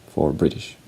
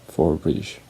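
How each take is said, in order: Both takes have the same delivery.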